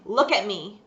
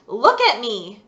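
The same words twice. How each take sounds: First: Stern. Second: Louder, sharper repeat of Look at me; a stern father raising his voice; loud stern command. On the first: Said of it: "He said sternly". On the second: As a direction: bark Look at me on the second try. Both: Acted.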